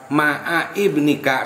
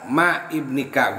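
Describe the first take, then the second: First: The first word ends with an 'a' vowel after 'ayn. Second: The first word ends without a vowel after 'ayn. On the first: This reading is the common one. "jadi kebanyakan dipatahkan" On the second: This reading is rare. "Boleh dibaca ma ibnika ma kan itu sedikit"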